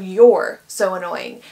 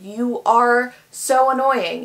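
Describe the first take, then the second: First: 'You are' is contracted to one syllable. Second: 'You are' is said as two full words. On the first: The speaker calls it right. "instead of" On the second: The speaker calls it wrong. "instead of you're so annoying"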